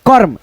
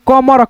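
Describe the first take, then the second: First: The r sound comes before the m. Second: The r sound comes after the m. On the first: The speaker calls it right. "म से पहले र का उच्चारण हम कर लेंगे" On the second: The speaker calls it wrong. "कमर नहीं दोस्तों, कमर पढ़ोगे तो आपको पढ़ने का गलत होगा उच्चारण"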